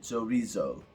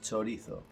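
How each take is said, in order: First: It is said with an English accent. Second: It is said with a Spanish accent. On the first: The speaker calls it wrong. "if your first language is English, you will probably say it like" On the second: The speaker calls it right. "the proper pronunciation, the way we pronounce this word in Spanish"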